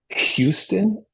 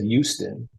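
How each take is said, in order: First: The word is pronounced slowly with careful effort. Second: The word is pronounced casually without effort. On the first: This is the standard pronunciation. The speaker calls it right. "I have to try that really hard" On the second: This is how it was said growing up. The speaker calls it wrong. "I always said Houston"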